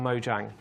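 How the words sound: The name is pronounced a non-Swedish way. The speaker calls it wrong. "It's not the Swedish way to speak"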